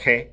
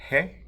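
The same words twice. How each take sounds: First: It starts with a rough fricative at the back. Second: It starts with a soft breathy h. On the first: The speaker calls it right. "the ach laut, the velar fricative" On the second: The speaker calls it wrong. "an aspirate H"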